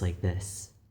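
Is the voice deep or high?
deep. The voice is deeper and more masculine. "I can talk in a more masculine voice"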